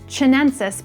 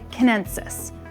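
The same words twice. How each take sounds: First: It begins with a 'ch' sound, as in cheese. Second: It begins with a 'k' sound, as in kite. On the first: The speaker calls it wrong. "I'll naturally say chinensis because I'm accustomed to pronouncing the country of China" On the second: The speaker calls it right. "it's more like Chinensis"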